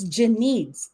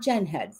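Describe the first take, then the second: First: The name is said as 'Janine's'. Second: The name is said as 'Gen Heads'. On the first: The speaker calls it right. "So it's Janine's" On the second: The speaker calls it wrong. "It's not Gen Heads"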